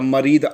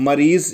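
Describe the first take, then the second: First: The word ends with a d sound. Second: The word ends with a z sound. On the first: "Kuwait और सऊदी वगैरह में तो दा ही निकाले तो ज़्यादा बेहतर" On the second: "मरीज़ बोले या मरीद बोले दोनों ही चलेगा"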